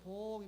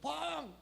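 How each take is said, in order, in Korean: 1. 그 이름은 작고 부드럽게 불러요. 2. 그 이름은 큰 소리로 외쳐서 불러요. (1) "이렇게 불러" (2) "이렇게 하고 부르면 큰일 나는 거예요"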